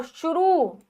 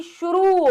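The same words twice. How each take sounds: First: शुरू ending in a short 'ru'. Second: शुरू as a higher 'shu-rooo'; raised शुरू with a held 'roo'; long oo. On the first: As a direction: say शुरू wrongly as 'shu-ru'. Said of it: "शुरू नहीं". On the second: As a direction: stretch the end of शुरू, pitched up. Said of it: "रा पर बड़ा हुआ आएगा". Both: Shown as a demonstration.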